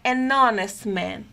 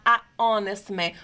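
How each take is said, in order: First: "an honest man" run together, n gliding into honest; "an honest" flowing as "a-nonest", no pause; linked pronunciation. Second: "a honest man" with a break between "a" and "honest"; unlinked "a... honest man", vowels kept apart; pause after article. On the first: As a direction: link "an" straight into "honest", silent H. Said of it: "nós facilitamos a pronúncia". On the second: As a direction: stop briefly after "a", then "honest" with silent H. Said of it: "porque eu teria uma pausa". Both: Shown as a demonstration.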